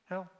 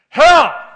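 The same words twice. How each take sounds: First: The word is said quietly and reluctantly. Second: The word is shouted loudly and forcefully. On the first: The speaker is reluctant to say the word. The speaker calls it wrong. "most people say it just the way you guys did" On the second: The speaker boldly proclaims the danger. The speaker calls it right. "we ought to shout it"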